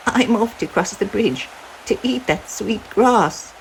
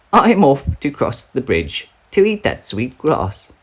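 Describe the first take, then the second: First: A tiny goat setting off bravely; littlest billy goat. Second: Higher, fuller goat voice; a bigger goat setting off confidently; middle-sized billy goat. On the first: Littlest goat announcing he will cross, high and small. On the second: Middle goat announcing he will cross, medium high. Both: Acted.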